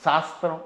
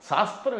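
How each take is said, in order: First: శాస్త్రం said with a plain dental s, as "saastram"; శాస్త్రం with the wrong dental s; wrong sibilant. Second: శాస్త్రం with a clear palatal "sha" at the start; శాస్త్రం said correctly with sh. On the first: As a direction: mispronounce శాస్త్రం with s instead of sh. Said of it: "శాస్త్రం అనలేరు కొంతమంది". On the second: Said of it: "శా అనేది తాళవ్యం". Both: Shown as a demonstration.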